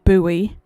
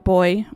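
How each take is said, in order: First: It is said with an American pronunciation. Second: It is said with a non-American pronunciation.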